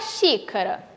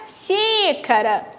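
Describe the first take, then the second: First: Said in the usual way. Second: "xícara" with the XÍ drawn out; called-out "xícara", long stressed í; calling the word. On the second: Shown as a demonstration. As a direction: stretch the first syllable of "xícara" as if calling it. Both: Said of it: "eu chamo pela palavra".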